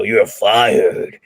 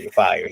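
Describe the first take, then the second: First: Lightly voiced boss saying "You're fired" with a firm fall; a hint of a TV boss, "You're fired" snapped short; boss firing someone. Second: Said in the usual way. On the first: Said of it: "He's like, you know". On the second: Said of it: "He doesn't say".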